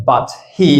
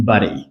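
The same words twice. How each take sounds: First: "but he" with full T and H; unlinked form. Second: "but he" as "buddy"; lower, joined but he with no H; dropped H. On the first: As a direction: keep but and he separate. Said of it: "We don't say". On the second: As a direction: tap the T of but into he. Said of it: "we drop the H". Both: Shown as a demonstration.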